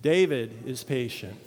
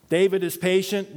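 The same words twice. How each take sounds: First: Said in the usual way. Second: Mock self-mocking reread. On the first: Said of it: "I'm going to say David is patient". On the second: Shown as a demonstration. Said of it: "Nope, I failed on the first one".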